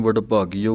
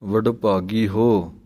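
First: ਵਡਭਾਗੀਓ with a final o sound, the wrong way; ਵਡਭਾਗੀਓ with the ੋ ending, the wrong reading; wrong pronunciation. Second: ਵਡਭਾਗੀ ਹੋ as two words, slow, with a pause before ਹੋ; ਵਡਭਾਗੀ then a separate ਹੋ, read slowly; correct pronunciation. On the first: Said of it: "ਊੜਾ ਲਾ ਕੇ ਨਹੀਂ ਕਹਿ ਦੇਣਾ". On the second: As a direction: split ਵਡਭਾਗੀ and ਹੋ clearly, slowly. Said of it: "ਹੁਣ ਇਸ ਪਾਠ ਦਾ ਵੀ ਧਿਆਨ ਰੱਖਣਾ ਹੈ". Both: Shown as a demonstration.

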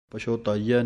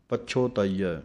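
First: ਪਛੋਤਾਈਐ slurred the wrong way; wrong pronunciation. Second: ਪਛੋਤਾਈਐ with a slightly heavier ਪ and a clear ਛ; correct pronunciation. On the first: Teacher showing students the mistake, ਪਛੋਤਾਈਐ said carelessly. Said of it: "ਨਹੀਂ ਕਹਿਣਾ". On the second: Teacher showing students the right way, ਪਛੋਤਾਈਐ with a weighted ਪ. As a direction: lean a little on the ਪ of ਪਛੋਤਾਈਐ. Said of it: "ਪੱਪੇ ਦੇ ਉੱਤੇ ਥੋੜ੍ਹਾ ਜਿਹਾ ਭਾਰਾ ਕਰਕੇ". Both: Shown as a demonstration.

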